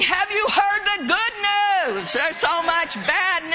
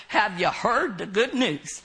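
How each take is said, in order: First: Higher-pitched, upbeat announcement; excited proclamation. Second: Put-on lower-pitched, half-hearted Minnesota accent; badly attempted Minnesota accent. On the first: Shown as a demonstration. Preacher showing how to greet people when witnessing, excited proclamation. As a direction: proclaim it like glad news to share. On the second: Preacher imitating a friend who went out witnessing, Minnesota accent. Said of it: "in his Minnesota accent".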